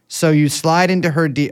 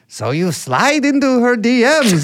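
First: It is said in the speaker's ordinary voice. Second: It is said in an imitated, put-on voice.

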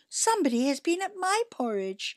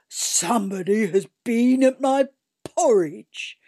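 First: It is said in a medium, middle-sized voice. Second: It is said in a big, gruff voice.

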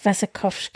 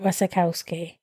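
First: The name is not said as it is spelled. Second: The name is said as it is spelled. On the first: The speaker calls it right. "But it's Wasikowska" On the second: The speaker calls it wrong. "I said it how you spell it"

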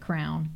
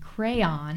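First: The word is said as one syllable. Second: The word is said as two syllables.

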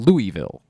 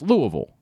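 First: Louisville is pronounced the way outsiders say it. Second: Louisville is pronounced the way locals say it. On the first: The speaker is not from the town. The speaker calls it wrong. "I would get looks for saying Louisville, which to our understanding is how you pronounce the town's name" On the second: The speaker is from the town. The speaker calls it right. "That's what anyone down there says the name of the town is"

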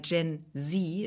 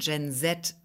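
First: It is said with an American accent. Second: It is said with a British accent.

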